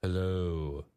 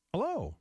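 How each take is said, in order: First: "Hello" in a low, descending pitch; low "Hello" sliding downward; determined hello. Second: "Hello" lifted to a higher note; high-pitched, demonstrative "Hello"; trustworthy hello. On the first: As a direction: let "Hello" fall steadily to sound determined. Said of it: "say hello in a descending pitch". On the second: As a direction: raise the end of "Hello" high. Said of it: "end hello in a higher note". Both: Shown as a demonstration.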